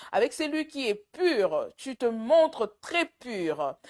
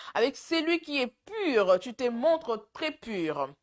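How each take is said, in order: Both takes have the same delivery.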